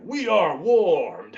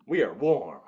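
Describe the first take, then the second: First: Loud, slow, stretched-out declaration; drawn-out hype. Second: Said in the usual way. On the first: Shown as a demonstration. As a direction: announce it big and slow. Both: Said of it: "I'm like".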